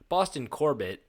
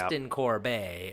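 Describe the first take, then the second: First: The surname is pronounced the plain English way. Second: The surname is pronounced as if it were French. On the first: The speaker calls it right. "they're like Boston Corbett" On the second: The speaker calls it wrong. "I thought it was like French"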